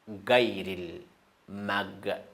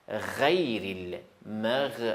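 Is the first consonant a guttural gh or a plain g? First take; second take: plain g; guttural gh. First: It starts with a plain hard g sound. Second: It starts with a guttural, throaty gh sound. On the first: The speaker calls it wrong. "Ça, c'est faux" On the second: The speaker calls it right.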